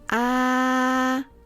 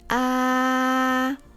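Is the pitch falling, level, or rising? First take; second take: level; level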